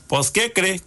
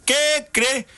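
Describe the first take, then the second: First: Said in the usual way. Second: ¿Qué cree? repetido mucho más agudo, con asombro; qué cree exclamado. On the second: Retold or imitated. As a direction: sube la voz en ¿Qué cree?, como quien no lo puede creer. (repite ¿Qué cree? más agudo y asombrado)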